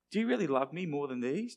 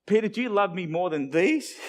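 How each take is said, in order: First: Earnest, searching question in an everyday pitch; understated, probing question; serious question. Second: Raised, louder mock disbelief, rising on "these"; incredulous, playful question ending high; silly question. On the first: Acted. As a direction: ask it sincerely, without the joke. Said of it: "but really, what's the fishing gear?". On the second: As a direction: ask it as if it sounds silly. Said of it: "sort of sounds silly".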